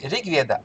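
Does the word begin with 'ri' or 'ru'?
ri. The word begins with the syllable 'ri'. This is how it is said in the north. "Почему говорят ригведа, ри?"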